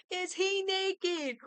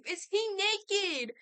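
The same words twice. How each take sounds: First: A different slow, high voice asking again; lightly voiced incredulous echo; mock character voice. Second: High, loud and slow disbelief; gasping who-is-this question; shocked question. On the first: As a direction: repeat it as a put-on voice. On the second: Real, not acted. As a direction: ask it in stunned disbelief.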